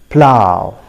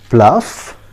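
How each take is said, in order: First: The word ends with an ow vowel. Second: The word ends with an f sound. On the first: The speaker calls it right. "the correct pronunciation of this word is plow" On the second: The speaker calls it wrong. "many of us pronounce it pluff"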